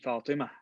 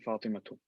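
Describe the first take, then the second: First: The word ends on a vowel, ending dropped. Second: The word ends with a full -tun ending. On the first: This is how it is said in speech at a stop. "that's why you say Fatima" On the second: This is the full written form. "in actual writing, you say Fatima too"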